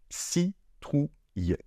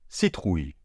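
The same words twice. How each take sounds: First: Very slow. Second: Said in the usual way. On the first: Shown as a demonstration. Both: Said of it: "on n'entend pas de I".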